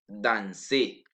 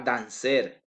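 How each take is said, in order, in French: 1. Le R final est muet à la fin. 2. Le R final se prononce à la fin. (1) "je dis danser" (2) "Je ne dis pas danser"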